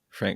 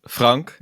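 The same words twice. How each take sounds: First: The name is said with English pronunciation. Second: The name is said with Dutch pronunciation.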